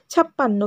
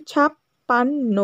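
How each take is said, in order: First: Said in the usual way. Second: ছাপ্পান্ন spoken slowly, syllables apart; teacher slowing a word for pupils. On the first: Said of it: "আমরা কীভাবে বলে থাকি ছাপ্পান্ন?". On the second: Shown as a demonstration. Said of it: "আস্তে করে বলো".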